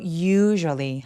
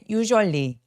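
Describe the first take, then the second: First: The first syllable is clearly stressed. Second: The first syllable is weakly stressed. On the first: The speaker calls it right. "강세를 또렷하게 첫 번째 u에다가" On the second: The speaker calls it wrong. "usually 아니고"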